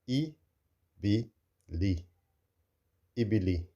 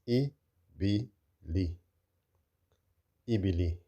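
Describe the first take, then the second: No difference in how they are said.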